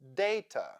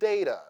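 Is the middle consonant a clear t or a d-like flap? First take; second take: clear t; flap. First: The middle consonant is a clear t. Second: The middle consonant is a d-like flap. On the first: "read these words with the sound T" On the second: "Now let's read it with flap T"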